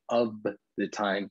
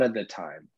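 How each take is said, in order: First: The word 'of' is slow with an f. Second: The word 'of' shrinks to a quick uh. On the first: "If I say it slow" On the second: "usually I say"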